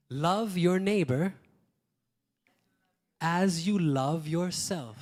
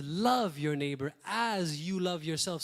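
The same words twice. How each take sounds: First: Slow, louder, each word weighed; slow solemn emphasis. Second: Said in the usual way. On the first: Shown as a demonstration. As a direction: proclaim it slowly, leaning on neighbor. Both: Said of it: "So God says".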